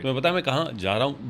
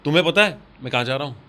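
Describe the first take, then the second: First: The emphasis falls on ja raha hoon. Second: The emphasis falls on tumhen pata. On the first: "जा रहा हूँ पे आया" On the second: "तुम्हें पता पे आया"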